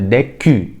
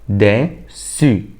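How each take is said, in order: First: The middle consonant is a k sound. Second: The middle consonant is an s sound. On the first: The speaker calls it wrong. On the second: The speaker calls it right.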